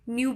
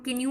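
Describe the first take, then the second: First: The word starts with an N sound. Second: The word starts with a K sound. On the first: The speaker calls it right. "न्यू पढ़ेंगे, एन से start करेंगे" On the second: The speaker calls it wrong. "कि न्यू नहीं पढ़ेंगे"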